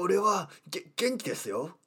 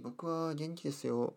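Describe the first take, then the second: First: It is said in a strained anime-style voice. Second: It is said in a relaxed, natural voice.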